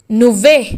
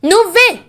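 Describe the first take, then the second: First: నువ్వే dropped low and firm; low firm repeat. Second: High pointed accusing you; accusing emphasis. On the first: Mother-in-law repeating her accusation, low firm నువ్వే. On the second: Mother-in-law accusing Ananya, high pointed నువ్వే. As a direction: jab the word నువ్వే high. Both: Acted.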